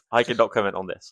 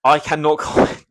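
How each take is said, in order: First: Said in the usual way. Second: Half-giggling no comment; laughing refusal. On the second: Real, not acted. Asked about race ratios, laughing off the answer. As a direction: laugh through the words, a notch higher and louder. Dodging a touchy question, laughing.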